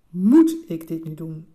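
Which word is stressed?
moet. The stress falls on the word "moet". Is it actually necessary to do this at all? "de eerste keer vraag je je af"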